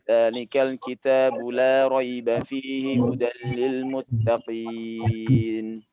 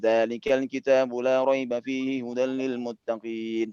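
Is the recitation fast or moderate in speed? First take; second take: moderate; fast. First: It is recited at a moderate, unhurried speed. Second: It is recited quickly, without lingering. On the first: It suits careful recitation for review. "pakailah bacaan yang, eee, tadwir" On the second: It suits repeating many times to memorize. "ini pakai ta metode yang, eee, hadar tadi"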